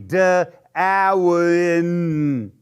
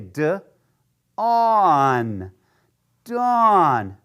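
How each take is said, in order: First: The a and w are sounded separately. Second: The a and w make one 'aw' sound. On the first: The speaker calls it wrong. "It wouldn't be duh, awin. That doesn't make sense to me" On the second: The speaker calls it right. "if I remember that A W says aw, then I could say"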